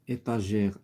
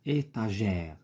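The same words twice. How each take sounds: First: Said in the usual way. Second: ايتاجير drawn out, closed é first, open è last; contrasted e sounds. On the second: Shown as a demonstration. Teacher shows why ايتاجير takes two accents, contrasting the vowels. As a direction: stretch ايتاجير to show its two different e sounds. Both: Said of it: "كنطقوها بطريقه مختلفه".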